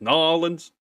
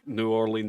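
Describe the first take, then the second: First: The name is squashed into about two syllables. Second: The name is said fully with every syllable. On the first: "It's just Nolans" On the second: "it doesn't sound like New Orleans"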